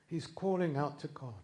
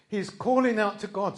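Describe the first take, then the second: First: Said in the usual way. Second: "He's calling out to God" said louder and higher, stress on "calling"; rising emphatic restatement; louder repeat. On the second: Shown as a demonstration. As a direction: build it, leaning on "calling".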